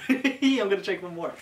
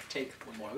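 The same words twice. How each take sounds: First: Said in the usual way. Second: Lower, softer mutter to self. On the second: Real, not acted. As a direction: mutter it under your breath.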